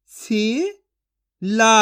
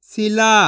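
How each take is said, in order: First: सिला stretched slowly; slow drawn-out sounding. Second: Said in the usual way. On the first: Shown as a demonstration. Teacher stretching सिला slowly for children to copy. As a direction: draw out सिला very slowly for the class. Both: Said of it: "मैं किस तरीके से एक एक अक्षर का उच्चारण करके".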